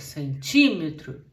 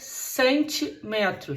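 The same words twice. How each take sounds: First: The stress falls on the syllable 'ti'. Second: The stress falls on the syllable 'me'. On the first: The speaker calls it right. "fica centímetro" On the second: The speaker calls it wrong. "Não fica centímetro"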